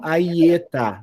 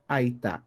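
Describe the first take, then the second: First: A short vowel adds a third syllable. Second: The word is said in two syllables. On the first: The speaker calls it wrong. "e não Aietá" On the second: The speaker calls it right. "eu leio Aitá"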